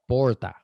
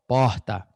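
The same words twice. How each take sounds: First: It is said in a São Paulo accent. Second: It is said in a Rio de Janeiro accent. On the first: "They drag it and they roll it a little bit more" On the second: "with the Carioca accent"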